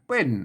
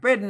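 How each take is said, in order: First: It is said with the ordinary tho tone. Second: It is said with the special tho tone. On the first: "อาใส่ไม้โท ... เป็นเสียงโทปกติ" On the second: "เป็นเสียงโทพิเศษ"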